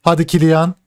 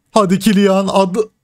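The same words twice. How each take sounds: First: Said in the usual way. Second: Pitched up, pleading; egging the striker on harder; rising excited plea; urging on. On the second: Real, not acted. Urging player on in match.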